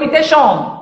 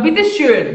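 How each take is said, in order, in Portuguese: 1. A última vogal é um som de 'o' simples posterior. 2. A última vogal é um som de 'ö' arredondado anterior. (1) "só que eu" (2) "Quando tem o trema, a boca é de I e o som é de OU"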